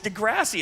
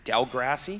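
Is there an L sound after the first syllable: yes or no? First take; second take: no; yes. First: No L sound follows the first syllable. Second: An L sound follows the first syllable. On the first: The speaker calls it right. "No, it's Degrassi" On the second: The speaker calls it wrong. "I've been saying it wrong all these years"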